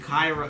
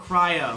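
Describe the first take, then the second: First: The r sound comes after the first vowel. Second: The r sound comes before the first vowel. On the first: The speaker calls it wrong. "It's not Cairo" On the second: The speaker calls it right. "No, Cryo"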